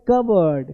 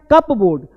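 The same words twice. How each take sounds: First: कबर्ड as "KUB-erd", no P; correct pronunciation. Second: कपबोर्ड as written, "CUP-BOARD"; spelling pronunciation. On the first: Teacher shows how it is read, corrected. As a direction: blend कबर्ड into two short syllables. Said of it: "पढ़ते हैं". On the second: Teacher contrasts spelling with speech, read literally. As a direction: sound both P and "board" in कपबोर्ड. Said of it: "लिखते हैं". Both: Shown as a demonstration.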